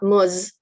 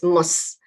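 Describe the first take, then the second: First: The syllable ends with a buzzing z sound. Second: The syllable ends with a hissing s sound. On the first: The speaker calls it wrong. "It's not muz" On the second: The speaker calls it right. "it's mus"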